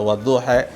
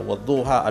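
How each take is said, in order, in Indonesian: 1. Vokal akhirnya condong ke 'e'. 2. Vokal akhirnya adalah 'a' terbuka biasa. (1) "ada wadduhe" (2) "ada wadduha"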